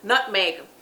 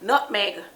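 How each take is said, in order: The two takes are said the same way.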